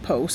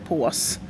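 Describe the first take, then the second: First: It is said with an English-sounding vowel. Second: It is said with a Swedish å vowel. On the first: The speaker calls it wrong. "folk säger pose istället för pås" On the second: The speaker calls it right. "istället för pås"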